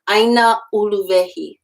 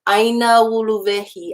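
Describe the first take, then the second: First: A sharp glottal stop separates the two words. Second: The two words blend smoothly without a glottal stop. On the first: The speaker calls it wrong. "I don't want that sharp glottal stop starting uluvehi" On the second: The speaker calls it right. "I'm blending it in"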